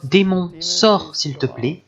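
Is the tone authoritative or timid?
timid. It is said in a timid, pleading tone.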